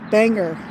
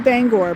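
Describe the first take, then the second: First: It is said with the outsider pronunciation. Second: It is said with the local pronunciation. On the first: This is how people from elsewhere say it. The speaker calls it wrong. "the people that are not natives... call it Bangor" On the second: This is how people from the town say it. The speaker calls it right. "We say Bangor"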